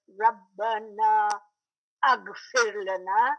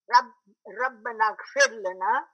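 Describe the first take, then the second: First: The words are separated with a full vowel sounded. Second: The two words are joined without a separate vowel. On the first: The speaker calls it wrong. "We don't say Rabbana aghfir lana. We don't do that" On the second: The speaker calls it right. "the two words ellipse, they go together"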